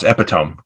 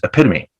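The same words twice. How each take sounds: First: It is said the way it is spelled. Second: It is said with its standard pronunciation. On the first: The speaker calls it wrong. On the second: The speaker calls it right.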